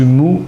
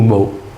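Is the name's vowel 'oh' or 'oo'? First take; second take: oo; oh. First: The name is said with an 'oo' vowel. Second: The name is said with an 'oh' vowel. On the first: "Selon lui-même, c'est Mou" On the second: "que certains appellent Mo"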